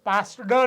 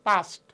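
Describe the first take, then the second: First: The word ends with a d sound. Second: The word ends with a t sound. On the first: The speaker calls it wrong. "પાસ્ડ નથી" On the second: The speaker calls it right. "અહીંયા ટ છે"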